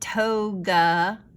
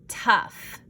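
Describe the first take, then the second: First: The vowel is a long oh sound. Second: The vowel is a short uh sound. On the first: The speaker calls it wrong. "this is not toga" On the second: The speaker calls it right. "it's tough, uh, uh, uh"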